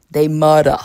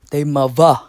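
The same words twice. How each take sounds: First: "mother" with a hard d in the middle, ending in "uh"; slangy "mother", th turned to d, r dropped; mother said "mudda". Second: "mother" with a v in place of th; slangy "mother", th turned to v, r dropped; mother said "muvva". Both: Shown as a demonstration. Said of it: "I don't think that's how you supposed to say it".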